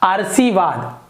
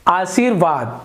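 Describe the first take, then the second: First: The r sound comes right after the first vowel. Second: The r sound comes after the second syllable. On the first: The speaker calls it wrong. "यदि इस प्रकार से लिखते हैं तो ये हो जाएगा आरसीवाद" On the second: The speaker calls it right. "सी के बाद र का उच्चारण होगा"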